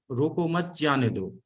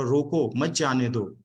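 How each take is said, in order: First: "रोको मत" run together, then "जाने दो"; pause after मत. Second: "रोको", short break, then "मत जाने दो" run together; pause after रोको. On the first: Speaker showing audience how a comma shifts meaning, pause after "मत". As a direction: move the comma so "मत" joins "रोको", breaking before "जाने दो". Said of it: "अल्प विराम की वजह से". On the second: Speaker showing audience how a comma shifts meaning, pause after "रोको". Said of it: "एक कॉमा के उसमें". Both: Shown as a demonstration.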